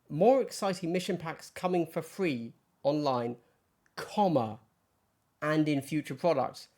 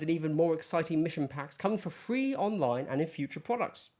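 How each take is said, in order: First: There is a pause after online. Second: It runs on without a pause after online.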